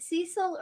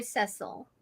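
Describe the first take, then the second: First: Cecil with a long EE, SEE-sil; Cecil, first vowel as in "see"; pronounced SEE-sil. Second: Cecil with a short E, SESS-ul; Cecil, first vowel as in "set"; pronounced SESS-ul. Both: Shown as a demonstration. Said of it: "Is it Cecil or Cecil?".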